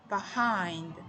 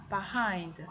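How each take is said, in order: The two takes are said the same way.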